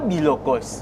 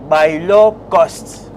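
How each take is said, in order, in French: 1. La première voyelle est un son 'i' simple. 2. La première voyelle est une diphtongue 'ai'. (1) "ce n'est pas bilokos" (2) "c'est bailocost"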